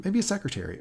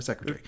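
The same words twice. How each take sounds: First: Said in the usual way. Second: "secretary" clipped to three syllables, British style; British-style pronunciation. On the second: Shown as a demonstration. Podcast host offers the alternative word, "secretary" in British pronunciation. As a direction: say "secretary" the British way, as "SEC-ruh-tree".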